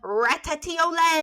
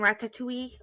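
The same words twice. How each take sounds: First: The word is said in a fancy-sounding way. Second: The word is said in a plain, ordinary way.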